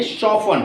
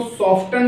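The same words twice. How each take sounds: First: "शॉफन" with F straight into the vowel; "शॉफन", T dropped; silent T. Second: "सॉफ्टन" with a clear T after the F; wrong-way "सॉफ्टन", T audible; T sounded. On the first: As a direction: say "शॉफन" leaving out the T. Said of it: "इसको बोलेंगे शॉफन". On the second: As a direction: say "सॉफ्टन" pronouncing the T. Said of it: "इसको सॉफ्टन ना बोल के". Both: Shown as a demonstration.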